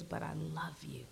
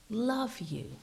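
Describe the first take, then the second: First: Softer, lower unvoiced whisper; whispered tenderly. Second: Said in the usual way. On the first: Preacher voicing God's loving words, whispered. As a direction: breathe it like a secret.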